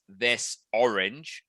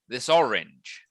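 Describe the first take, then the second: First: The two words are said separately. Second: The two words run together as one. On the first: The speaker calls it wrong. "we don't say" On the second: The speaker calls it right. "all one unit"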